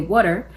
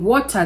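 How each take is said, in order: First: It is said in a Black American accent. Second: It is said in the speaker's own foreign accent.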